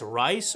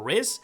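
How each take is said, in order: First: The name is said like 'rice'. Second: The name is said like 'riz'. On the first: "some may pronounce incorrectly as Rice" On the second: "or Riz"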